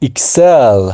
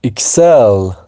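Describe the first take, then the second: The two takes are said the same way.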